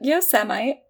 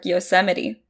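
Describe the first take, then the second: First: It is said as 'yo' plus 'Semite'. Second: It is said with four syllables, yo-SEM-i-tee. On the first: The speaker calls it wrong. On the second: The speaker calls it right.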